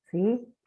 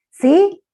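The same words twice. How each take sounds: First: Said in the usual way. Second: High, loud prompting question; pregunta insistente. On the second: Real, not acted. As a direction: call out for a response, pitch jumping up. Insiste porque nadie le responde. (pregunta insistente, aguda y fuerte)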